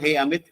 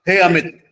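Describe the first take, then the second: First: It is said in a normal, relaxed voice. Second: It is said with a raised, louder voice.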